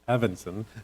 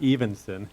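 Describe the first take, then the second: First: The name begins with a short E sound. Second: The name begins with a long E sound. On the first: The speaker calls it right. "it's Evanson" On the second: The speaker calls it wrong. "Not Evenson"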